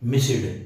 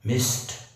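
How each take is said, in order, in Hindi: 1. आख़िरी हिस्सा एक अलग सिलेबल की तरह बोला जाता है। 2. आख़िरी हिस्सा छोटा करके बोला जाता है, कोई अलग सिलेबल नहीं। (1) "गलत है" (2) "कड़क कड़क प्रोनाउंस करो ... सही"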